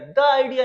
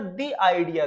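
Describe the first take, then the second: First: 'The' is pronounced with a short 'uh' sound. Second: 'The' is pronounced with a long 'ee' sound. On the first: The speaker calls it wrong. "नहीं बोलना है यहाँ पर" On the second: The speaker calls it right. "Vowel sound से पहले T H E लगा हुआ है तो क्या होगा? दी"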